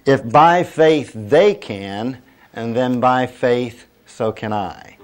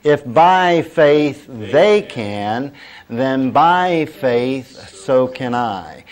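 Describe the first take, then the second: First: "they can" leaned on, "so can I" dropping back; emphatic first statement. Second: Very slow, drawn-out "by faith", raised and louder; leading group recitation. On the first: Preacher first states the line for congregation, measured emphasis. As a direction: set up "by faith" firmly, ease off on "so can I". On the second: Preacher has congregation say it along, slow and emphatic. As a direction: stretch each word so a crowd can join. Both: Shown as a demonstration. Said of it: "Say that with me".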